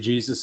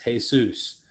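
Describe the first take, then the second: First: The name is pronounced with English sounds. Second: The name is pronounced with Spanish sounds. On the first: "you don't say Jesus in in um, Spanish" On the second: "it's Jesus"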